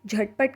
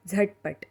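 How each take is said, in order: First: Said in the usual way. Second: झटपट with the झ pressed out like a forceful z; Marathi jh sound. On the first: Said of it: "इसे हिंदी में झटपट कहते हैं". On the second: Shown as a demonstration. Teacher to learners, झटपट with a forceful z-like jh. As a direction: push the z hard at the start of झटपट. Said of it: "ध्यान से सुनिए".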